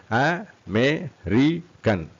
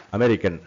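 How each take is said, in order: First: Very slow A - ME - RI - CAN; four separate beats on American; syllable by syllable. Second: Said in the usual way. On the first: Shown as a demonstration. Teacher demonstrates four syllables, syllable by syllable.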